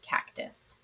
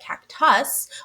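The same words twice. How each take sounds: First: The second syllable has a reduced schwa vowel. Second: The second syllable has a full vowel. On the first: The speaker calls it right. "we hear the schwa sound, the uh or I, in the word cactus" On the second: The speaker calls it wrong. "Instead of the cactus"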